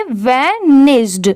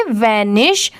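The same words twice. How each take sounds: First: वैनिश्ड drawn out slowly with a clear d at the end; d sound at the end. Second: Teacher models वैनिश with a clean sh finish; say vanish. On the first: Teacher stresses the ed ending for students, slow and deliberate. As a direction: land the final d of वैनिश्ड. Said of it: "यहाँ पर last में ड की sound ज़रूर आएगी". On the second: Teacher shows students the base word, वैनिश with no final d. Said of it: "easily बस क्या pronounce करेंगे?". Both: Shown as a demonstration.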